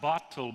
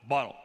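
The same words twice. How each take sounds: First: The middle consonant is a clear t sound. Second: The middle consonant is a glottal stop. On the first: "not bottle" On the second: "the Cockney accent in England when they go, ... but bottle"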